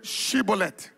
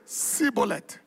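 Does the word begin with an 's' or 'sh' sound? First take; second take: sh; s. First: The word begins with a 'sh' sound. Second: The word begins with an 's' sound. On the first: The speaker is not from that tribe. The speaker calls it right. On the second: The speaker is from that tribe. The speaker calls it wrong.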